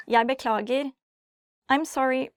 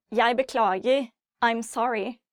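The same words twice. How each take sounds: The two takes are said the same way.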